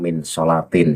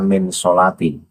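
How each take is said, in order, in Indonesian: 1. Kata terakhir berakhir dengan huruf n yang ditambahkan. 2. Kata terakhir berakhir dengan vokal biasa. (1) "bukan min sholatin ya" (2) "Itu Bahar membacanya kan min sholati"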